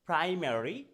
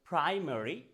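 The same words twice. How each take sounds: No difference in how they are said.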